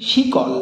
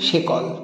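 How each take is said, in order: First: The first vowel is an i sound. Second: The first vowel is an e sound.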